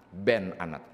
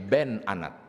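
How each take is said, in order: First: The first word is said with an 'e' vowel. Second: The same.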